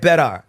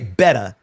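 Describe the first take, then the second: First: The word ends in a light 'ar' sound. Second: The word ends in a plain 'ah' sound. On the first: "she put a slight A R" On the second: "She didn't even put an A. Like, she didn't say better"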